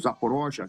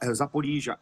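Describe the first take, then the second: First: The name is said in its Russian form. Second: The name is said in its Ukrainian form.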